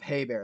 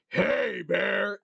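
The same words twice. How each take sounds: First: It is said softly, without force. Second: It is a loud, deep, throaty yell. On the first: It sounds harmless and won't scare anything. The speaker calls it wrong. "that's not going to scare anyone" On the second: It shows real aggression to scare the animal off. The speaker calls it right. "a real deep, throaty yell"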